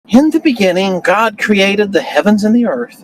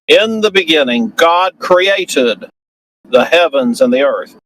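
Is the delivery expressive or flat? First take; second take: flat; expressive. First: It is read in a flat, unemphatic way. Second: It is read with lively inflection on key words. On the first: The speaker calls it wrong. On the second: The speaker calls it right.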